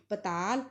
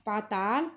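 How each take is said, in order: First: पताल with short first vowel; only the second aa long in पताल; Punjabi short vowel. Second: पाताल with long aa twice; double long vowel. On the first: Teacher showing the correct form, shortened पताल. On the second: Teacher showing the incorrect form, long-vowelled पाताल. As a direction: hold the first vowel of पाताल. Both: Shown as a demonstration. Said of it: "आ दी मात्रा दो बार प्रयोग नहीं".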